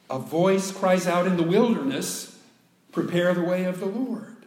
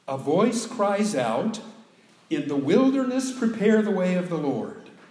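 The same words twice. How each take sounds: First: The pause comes after 'in the wilderness'. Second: The pause comes before 'in the wilderness'.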